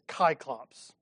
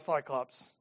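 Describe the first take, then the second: First: The word begins with a k sound. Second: The word begins with an s sound. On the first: It is the original Greek form. The speaker calls it right. "It's kyclops" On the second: It is the Latin-based form. The speaker calls it wrong. "it's not cyclops"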